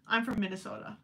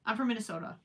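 The two takes are said the same way.

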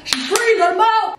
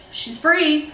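First: "free" squealed much higher and louder; squealed release. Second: Said in the usual way. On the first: Real, not acted. To the camera after freeing her hair, high gleeful squeal.

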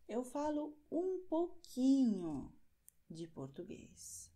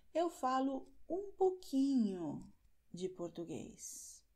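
No difference in how they are said.

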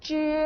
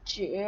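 First: จือ held long on a level pitch; base syllable, level tone. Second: จือ dipping low, then coming back up; third tone. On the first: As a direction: model จือ flat and sustained, without a dip. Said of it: "คำนี้จะเป็น". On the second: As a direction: say จือ in Mandarin third tone with a clear dip. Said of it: "อ่านว่า". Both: Shown as a demonstration.

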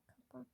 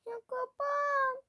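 First: Said in the usual way. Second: Very high, loud, slow drawn-out plea; annoyed wail. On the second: Real, not acted. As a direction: whine loudly at something refusing to close. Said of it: "Sinirlenmeye başladım".

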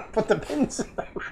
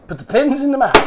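First: Higher, small put-on echo voice; playful echo. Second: High, loud playful chant; high, loud and hammed-up; mock rallying call. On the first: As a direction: echo the catchphrase back in a silly high voice. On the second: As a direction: call it out like a game-show catchphrase. Mock crowd chant then echoed.

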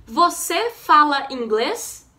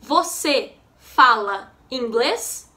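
First: Said in the usual way. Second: Slow teaching repeat with rising end; learner-paced question, pauses between words. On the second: Shown as a demonstration. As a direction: ask it slowly, separating each word.

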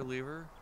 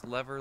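First: Lever said as LEE-ver, rising; long-e pronunciation. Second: Lever said as LEV-er; short-e pronunciation. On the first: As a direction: give lever a long ee, like beaver. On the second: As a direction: give lever a short e, like never. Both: Shown as a demonstration. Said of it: "decide on how I'm gonna say that".

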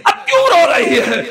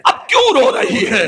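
First: Pleading repeat. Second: Said in the usual way. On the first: Acted. Father asking his sobbing daughter a second time, more insistently. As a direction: press the question a second time, more urgently.

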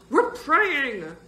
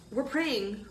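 First: Loud, high, stretched-out repeat; emphatic declaration. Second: Raised pitch, moderate volume; anxious reply. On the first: Boy insisting to his friend that he prays, loud high declaration. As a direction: declare it louder, leaning hard on the verb. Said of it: "Bird declared". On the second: Boy answering his friend's plea, lifted voice held in check. Acted first take, then repeated louder. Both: A narrator's reading.

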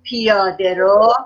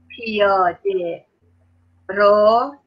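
First: Said in the usual way. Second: پیاده then a pause, then رو, each stretched very slowly; slow dictation. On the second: Shown as a demonstration. Teacher dictating to the class, very slow and split apart. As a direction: spell it out word by word for the kids.

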